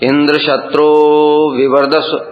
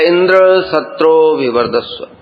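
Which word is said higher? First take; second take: शत्रो; Indra. First: The pitch goes high on the word shatro. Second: The pitch goes high on the word Indra. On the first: The speaker calls it right. "शत्रो में ऊंचा जाएगा" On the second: The speaker calls it wrong. "Indra ऊंचा"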